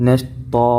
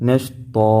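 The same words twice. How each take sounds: The two takes are said the same way.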